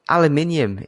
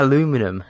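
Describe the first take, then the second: First: The word is said with five syllables. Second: The word is said with four syllables. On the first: The speaker calls it right. "It's like aluminium" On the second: The speaker calls it wrong. "It's not a- aluminum"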